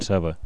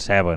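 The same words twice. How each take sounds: First: The stressed e is pronounced as a neutral vowel. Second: The stressed e is pronounced as an open vowel. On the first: Those farmers do not say it this way. "no diuen ceba" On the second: Farmers in some parishes say it this way. "es fa una oberta, diuen ceba"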